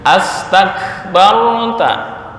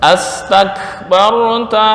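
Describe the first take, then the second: First: The word begins with 'as', as 'astakbarta'. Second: The same.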